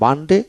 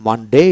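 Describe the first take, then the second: First: British "মানডে" with a short ending; British pronunciation. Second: American "মানডে" with a long "dei" ending; American pronunciation. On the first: Teacher contrasting weekday names, British short ending on "মানডে". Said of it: "এটা হলো British উচ্চারণ". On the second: Teacher contrasting weekday names, American long ending on "মানডে". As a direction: say "মানডে" the American way, stretching the last vowel. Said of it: "American". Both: Shown as a demonstration.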